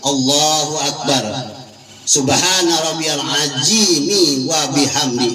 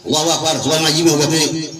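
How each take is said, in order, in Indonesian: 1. Frasa itu dibaca pelan dan tenang. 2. Frasa itu dibaca sangat cepat. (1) "Tapi pelan bacanya, bacanya bukan cepat" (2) "cepat banget, nggak boleh"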